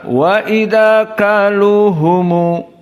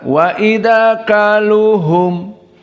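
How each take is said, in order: First: The final m is followed by a u vowel. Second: The final m is closed with no vowel. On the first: "maka mereka akan membaca" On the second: "Misalnya baca"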